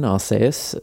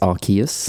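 First: The name is pronounced the Japanese way. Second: The name is pronounced the English way. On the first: "If you want the Japanese pronunciation" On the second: "the English pronunciation, apparently it's"

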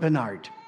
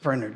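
First: The name is pronounced the American way. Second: The name is pronounced a non-American way. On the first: The speaker calls it wrong. "Americans would call him Bernard, which is wrong" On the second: The speaker calls it right. "It's Bernard Cornwell"

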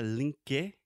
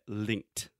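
First: The word ends on a K sound, no T. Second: The word ends with a T after the K. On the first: The speaker calls it wrong. "Mas não é linke" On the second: The speaker calls it right. "depois do som do K, você tem o som do T"

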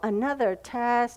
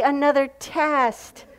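First: It is said in a groaning, dismayed tone. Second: It is said in an excited, cheerful tone. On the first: A coming trial is seen as a burden. The speaker calls it wrong. "I know for me, I go, oh" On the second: A coming trial is welcomed as a blessing. The speaker calls it right. "So we should be going, yay"

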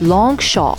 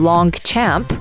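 First: The name is said with a French pronunciation. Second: The name is read as an English word. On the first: The speaker calls it right. "the way you pronounce it is Longchamp" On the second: The speaker calls it wrong. "It's written Longchamp"

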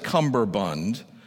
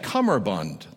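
First: An extra b sound is heard mid-word. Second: No extra b sound is heard mid-word. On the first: The speaker calls it wrong. "he pronounced it as" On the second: The speaker calls it right. "it's actually cummerbund. There is no B"

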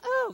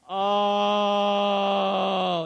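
First: The 'oh' is short and quick. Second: The 'oh' is long and drawn out. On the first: The speaker calls it wrong. "your quick little, oh, that's cute" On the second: The speaker calls it right. "It's long and it's drawn out because it's holy cabooses"

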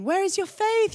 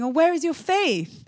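First: It sounds gentle and encouraging. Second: It sounds like a scolding rebuke.

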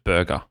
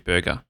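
First: The U vowel is deep. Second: The U vowel is soft and shallow. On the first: This is not the Perth accent. "Instead of burger" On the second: This is the Perth accent. "It's like it's not a deep U. It's like a soft, like a shallow U"

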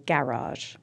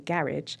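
First: The word is said closer to the American way. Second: The word is said in a typically British way. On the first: "Which is a little closer to the American garage" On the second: "I can either say garage"

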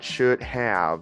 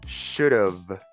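First: The word have is said fully and separately. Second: The word have is reduced to a short of. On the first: The speaker calls it wrong. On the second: The speaker calls it right.

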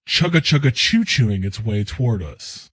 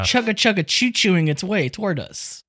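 First: It is said in a put-on character voice. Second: It is said in his normal voice.

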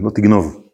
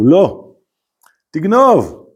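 First: It is said without a pause. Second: There is a pause after the first word.

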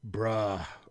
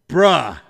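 First: It is said with a disgusted tone. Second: It is said with an excited tone. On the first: The speaker is annoyed or repelled. "it is used either in disgust or excitement" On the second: The speaker is thrilled.

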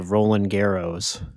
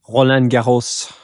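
First: The name is said with an American accent. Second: The name is said with a French accent.

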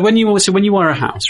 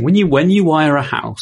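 First: The words are spoken casually, without careful articulation. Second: The words are spoken with careful, clear articulation. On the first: The speaker calls it wrong. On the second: The speaker calls it right.

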